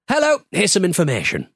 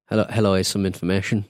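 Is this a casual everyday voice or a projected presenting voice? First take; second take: projected; casual. First: Spoken in a projected, expressive presenting voice. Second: Spoken in a relaxed, casual everyday voice. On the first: "Now do it as your voiceover voice" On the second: "say in your normal voice"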